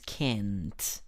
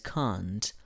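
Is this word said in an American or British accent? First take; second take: American; British. First: It is said in an American accent. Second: It is said in a British accent. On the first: "En la pronunciación americana es can't" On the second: "En británica es can't"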